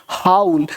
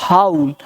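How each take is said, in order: Both takes have the same delivery.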